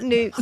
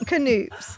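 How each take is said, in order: First: The word starts with no K sound. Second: The word starts with a sounded K. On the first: The speaker calls it wrong. "you don't pronounce the K" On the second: The speaker calls it right. "no, it's not Noops, it's Canoops"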